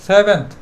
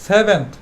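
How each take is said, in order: The two takes are said the same way.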